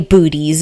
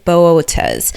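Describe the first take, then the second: First: It begins with a single 'boo' sound, like booties. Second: It begins with two separate vowels, 'bo-oh'. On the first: The speaker calls it wrong. "please don't say booties. It is not booties" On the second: The speaker calls it right. "There's a uh, double dot ab- above that O ... you say it in a very specific way"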